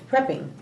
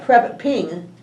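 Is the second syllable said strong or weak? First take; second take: weak; strong. First: The second syllable is said weakly. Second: The second syllable is said strongly. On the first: The speaker calls it right. "It's prepping" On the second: The speaker calls it wrong. "you don't call it prep ping. You don't pronounce the syllable that, that strongly"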